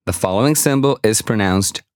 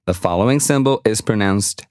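Both takes have the same delivery.

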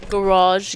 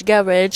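First: "Garage" as guh-RAHZH; stressed second syllable. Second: "garage" as GARR-idge; British pronunciation. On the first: Comparing accents with friends, "Garage" as guh-RAHZH. Contrasting two pronunciations of garage. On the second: Comparing accents with friends, "garage" as GARR-idge. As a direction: stress the first syllable of "garage", ending in -idge. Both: Shown as a demonstration.

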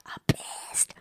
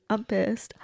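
First: Breathy whispered "I'm pissed" under the breath. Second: Said in the usual way. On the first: Pretend. Reacting to the angry hero, whispered.

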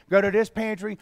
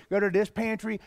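First: "go" leaned on in "go to this pantry"; "go" pushed, "this" light; stress on go. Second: "this" leaned on in "go to this pantry"; "this" pushed, "go" light; stress on this. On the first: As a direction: hit the word "go". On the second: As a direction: hit the word "this". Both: Shown as a demonstration.

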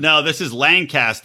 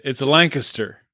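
First: "Lancaster" as LAN-caster with full middle; other pronunciation. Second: "Lancaster" said LANG-kuh-ster; local pronunciation. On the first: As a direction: stress "Lancaster" as LAN-cas-ter, full a. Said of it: "they say Lancaster out here". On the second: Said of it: "That's how you say it". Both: Shown as a demonstration.

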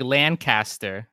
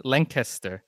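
First: "Lancaster" as LAN-cast-er; "Lancaster" in two clear parts, LAN plus CASTER; spelling pronunciation. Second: "Lancaster" as LANK-iss-ter; "Lancaster" with a short, reduced middle, "LANK-uh-ster"; local pronunciation. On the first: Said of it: "it looks like Lancaster". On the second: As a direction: stress the first syllable of "Lancaster", squash the rest. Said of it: "that's how you say it". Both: Shown as a demonstration.

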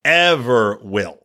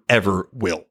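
First: "Ever will" slowed right down, each word weighed; slow emphatic repeat. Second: Said in the usual way. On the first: Shown as a demonstration. Podcaster repeating his point, slow and emphatic. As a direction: drag out "Ever will" to hammer it home.

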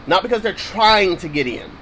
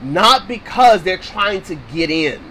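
First: Emphatic "trying", corrected emphasis; stress on TRYING. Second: Said in the usual way. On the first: Shown as a demonstration. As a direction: punch "trying" in "they're trying to get in". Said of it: "put emphasis on the right word". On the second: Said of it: "Make sure I put emphasis".

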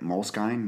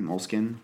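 First: MOLESKINE ending like "skine", rhyming with sign; unsure pronunciation. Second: MOLESKINE ending like "skin", with a questioning rise; alternative pronunciation. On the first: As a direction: try MOLESKINE with a long i at the end. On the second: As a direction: try MOLESKINE as plain "mole-skin". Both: Shown as a demonstration. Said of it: "is that how you say it?".

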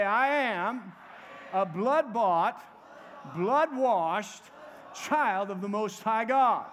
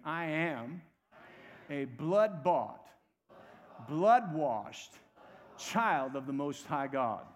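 First: Loud, slow rallying confession; rally the congregation with enthusiasm, phrase by phrase; enthusiastic declaration. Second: Slow, lower-pitched call-and-response confession; measured declaration. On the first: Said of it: "say it with a little bit of enthusiasm". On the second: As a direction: lead the congregation slowly, phrase by phrase. Leads congregation in repeating confession. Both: Shown as a demonstration.

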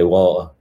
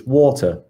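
First: "water" in a plain Manchester accent, as he says it himself; "water" said the everyday Manchester way. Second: "water" in a higher, put-on posh British accent; "water" said like a proper posh Brit, pitched up. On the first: Explaining how Mancunians say it, in a Manchester accent. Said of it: "If you're from Manchester, you just say water". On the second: Contrasting posh Brits with Manchester, in a mock posh British accent. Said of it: "if you're proper posh British, it's water". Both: Shown as a demonstration.

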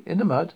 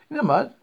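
First: Said in the usual way. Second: High, louder incredulous query; incredulous, voice pitched well up; incredulous question. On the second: A narrator's reading. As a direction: question it in raised disbelief. Incredulous question about lying in mud.

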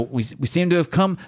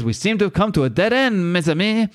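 First: Said in the usual way. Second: Lightly acted French accent, pitched up. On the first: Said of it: "he says, you know". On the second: Frenchie telling his friends they are stuck, French accent. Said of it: "Frenchie says".

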